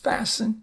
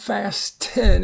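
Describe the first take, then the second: First: The T sound is silent. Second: The T sound is pronounced. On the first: The speaker calls it right. "it's just fasten" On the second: The speaker calls it wrong. "it's not fasten"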